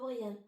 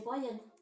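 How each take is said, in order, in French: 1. Le nom se prononce comme 'brillant' en français. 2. Le nom se prononce à l'anglaise, 'bry-an'. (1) "pas Brian" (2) "normalement, ça c'est Brian"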